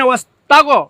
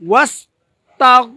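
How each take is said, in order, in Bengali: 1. শেষ ব্যঞ্জনটি একটি অতিরিক্ত স্বরধ্বনি দিয়ে ছাড়া হয়। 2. শেষ ব্যঞ্জনটি কোনো অতিরিক্ত স্বরধ্বনি ছাড়া ধরে রাখা হয়।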